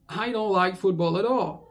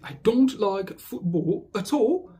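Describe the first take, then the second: First: 'At all' is linked in an American accent. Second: 'At all' is linked in a British accent. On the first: "en anglais euh, un peu plus américain" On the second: "en anglais euh, britannique"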